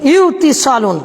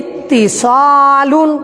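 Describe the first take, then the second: First: A w sound comes before the t. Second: The w becomes t, giving a doubled t. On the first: This form is harder to pronounce. The speaker calls it wrong. "এখানে যদি ওয়াও দিয়া পড়েন একটু হলেও কঠিন হবে" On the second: This form is easier to pronounce. The speaker calls it right. "যদি ওই ওয়াওটাকে তা করে দেই তাহলে হলো ইত্তি সালুন, সহজ হলো না?"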